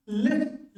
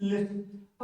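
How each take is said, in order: First: lift said with a rising, slightly raised tune; first model take. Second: lift said lower and softer with a falling close; second take to repeat. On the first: Teacher models lift for students to hear first, rising tune. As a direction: present the word lift like a question, lifting at the end. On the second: Teacher repeats lift so students echo it, falling softly. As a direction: settle the word lift down, finished and quiet. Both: Shown as a demonstration. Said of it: "हर चीज को दो बार बोल रहा हूँ".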